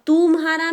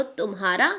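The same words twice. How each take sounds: First: "तुम्हारा" with तु stretched into a long ऊ. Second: "तुम्हारा" with a quick short u in तु. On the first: Teacher contrasting spellings, "तुम्हारा" with long oo. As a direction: drag out the first vowel of "तुम्हारा". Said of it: "तुम्हारा में बड़ा ऊ लग गया". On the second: Teacher contrasting spellings, "तुम्हारा" with short u. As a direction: keep the first vowel of "तुम्हारा" short. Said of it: "तुम्हारा में छोटा ऊ लगा". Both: Shown as a demonstration.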